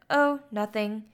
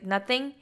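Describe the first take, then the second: First: Mild, offhand dodge; casually evasive retold reply; brushing off. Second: NOTHING quietly echoed with a rising question; soft, querying NOTHING?. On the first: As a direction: play it down casually as an acted quote. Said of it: "brushes off the question". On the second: Retold or imitated. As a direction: softly lift the end of NOTHING in doubt. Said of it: "she's like".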